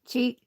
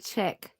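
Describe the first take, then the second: First: The vowel is long, like in cheek. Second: The vowel is short, like in chick. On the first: This is the name's other pronunciation. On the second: This is how people say it locally.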